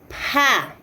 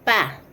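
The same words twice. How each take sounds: First: The consonant has a strong puff of air. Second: The consonant is plain, with no extra air.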